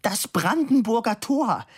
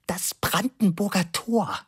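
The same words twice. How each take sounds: First: High-pitched indignant cry; high shout, near tears; screaming. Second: Slow, high-pitched correction; measured, high-voiced informing; explaining. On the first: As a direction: cry it out in exasperation. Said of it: "schrie die dicke Dame". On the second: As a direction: enlighten him, word by word. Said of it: "sagte aufklärend zu Labude". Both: A narrator's reading.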